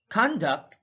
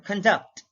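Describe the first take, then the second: First: CONduct, first syllable punched; slow teacher's demo of CONduct; stress on first syllable. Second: ConDUCT, second syllable stressed; slow teacher's demo of conDUCT. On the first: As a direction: say "conduct" with a full, stressed CON. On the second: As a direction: say "conduct" with weak con, strong DUCT. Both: Shown as a demonstration. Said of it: "stress is the verbal emphasis used".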